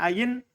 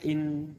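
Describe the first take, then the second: First: The second hamza is replaced by a y glide. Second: The second hamza is kept as a glottal stop. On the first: The hamza is substituted. "Fa in syi'ta abdalta" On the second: The hamza is kept as it is. "wa in syi'ta haqqaqta"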